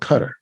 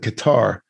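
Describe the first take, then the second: First: It is pronounced differently from its spelling. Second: It is pronounced the way it is spelled. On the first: The speaker calls it right. "it's actually called Qatar. That's the proper pronunciation" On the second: The speaker calls it wrong. "I used to pronounce that Q A T A R. I called it Qatar"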